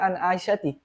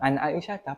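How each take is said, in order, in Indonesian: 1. Nama itu diakhiri dengan tambahan bunyi 'ti'. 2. Nama itu diakhiri dengan bunyi 'ah' biasa. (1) "Pernah dengar an Aisyati? Nggak ada" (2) "Yang paling ente sering dengar apa?"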